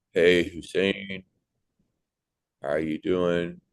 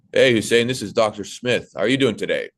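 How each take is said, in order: First: Slow, lazy laid-back greeting; too casual. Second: Louder, confident clear greeting; serious professional. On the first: Imagined doctor greeting a patient, slow and overly casual. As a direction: drawl it out like you don't care. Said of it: "the doctor was talking to me like". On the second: Imagined doctor greeting a patient, confident and professional. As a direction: sound in charge and attentive. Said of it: "That's my tonality". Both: Retold or imitated.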